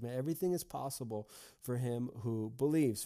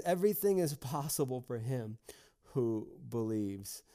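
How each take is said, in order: First: Said in the usual way. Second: Weighty and deliberate, slowing right down on "who believes"; emphatic declaration. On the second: Retold or imitated. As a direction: proclaim it, drawing out "who believes". Jesus answers the doubting father.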